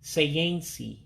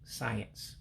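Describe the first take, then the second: First: An extra 'ee' vowel follows the final s. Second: The word ends on the s with no extra vowel. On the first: This is how the speaker's community says it. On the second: This is the standard form.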